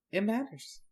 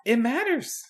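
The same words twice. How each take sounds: First: "It matters" high and much softer; hushed echo. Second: "It matters" pitched high at normal volume; high-pitched pronouncement. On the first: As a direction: repeat "It matters" as a faint echo. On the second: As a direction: say "It matters" high and drawn toward mystery. First of two teasing repeats. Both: Pretend.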